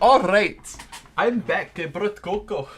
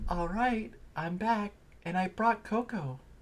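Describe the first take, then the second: First: It is spoken in an Irish accent. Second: It is spoken in a soft, sweet voice. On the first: The speaker calls it wrong. "did I give her a fucking Irish accent?" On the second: The speaker calls it right. "Give her a soft, sweet voice"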